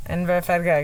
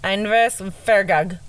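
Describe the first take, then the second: First: Inverfargag run together fast, Scottish-style; quick Scottish try. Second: Inverfargag said slowly in a trying Scottish accent, ending in gag; attempted Scottish accent. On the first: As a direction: rattle off Inverfargag like a local. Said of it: "let me do it again". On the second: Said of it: "That was good". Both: Shown as a demonstration.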